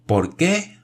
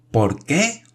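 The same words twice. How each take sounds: First: Much higher shouted question. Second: High, strained repeated shout; shouted again. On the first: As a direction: yell the question in astonishment. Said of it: "gritó Michel". (grito agudo de asombro) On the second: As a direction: shout it a second time. Repite gritando. (grito repetido y agudo) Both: A narrator's reading.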